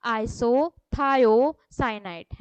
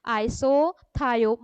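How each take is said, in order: First: Isothiocyanate stretched out, every syllable held long; very slow for repetition. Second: Isothiocyanate said slowly, syllables separated; deliberate teaching pace; slow for repetition. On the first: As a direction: say it slowly so the class can repeat. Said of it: "मेरे पीछे पीछे repeat करिए". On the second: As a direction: model the word for the class to echo. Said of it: "आप मेरे पीछे repeat करते जाइए". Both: Shown as a demonstration.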